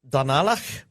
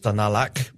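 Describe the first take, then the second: First: The word ends in a throaty 'ch' sound. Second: The word ends in a hard 'k' sound. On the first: The speaker calls it wrong. "with the ach at the end" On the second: The speaker calls it right. "with the hard C"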